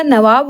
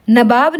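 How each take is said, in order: First: नवाब with v in the middle, b last; correct नवाब. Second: नवाब with b and v muddled; wrong नवाब. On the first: Teacher corrects it, नवाब said as navaab. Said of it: "होगा". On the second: Teacher shows the mistake, नवाब said as nabaab. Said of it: "नहीं होगा". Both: Shown as a demonstration.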